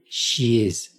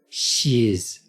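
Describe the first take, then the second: The two takes are said the same way.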